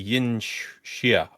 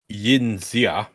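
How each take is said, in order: First: The X is read as an sh sound. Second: The X is read as an English letter. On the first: "X, if this is Chinese, is more Shua" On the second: "if I was going to read this verbatim"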